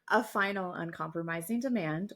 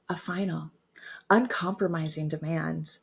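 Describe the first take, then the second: First: The voice is soft and smiling. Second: The voice is low and sultry. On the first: The speaker calls it right. "with a smile and a really soft voice" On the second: The speaker calls it wrong. "That's my bedroom voice"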